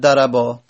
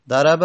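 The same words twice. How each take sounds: First: ضربا with the last vowel drawn long: darabaa; long final alef. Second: ضرب ending on a short "a": daraba; short final vowel. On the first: Teacher showing the dual past form, long final vowel. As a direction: stretch the closing vowel of ضربا. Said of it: "تثنیهٔ ماضی". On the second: Teacher showing the base past form, short final vowel. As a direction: say ضرب with a brief, unstretched final a. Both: Shown as a demonstration.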